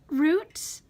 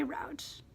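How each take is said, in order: First: Root said with an oo sound, like boot; root, rhymes with boot; saying root. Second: Route said with an ow sound, like out; route, rhyming with shout; saying route. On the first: Reading a word list aloud, root as in boot. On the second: Checking her own pronunciation aloud, route as in out. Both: Shown as a demonstration. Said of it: "or do I say route".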